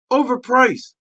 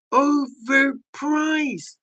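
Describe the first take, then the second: First: Said in the usual way. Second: Very slow, soft and dragged out; overpriced drawn out slowly and quietly. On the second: Shown as a demonstration.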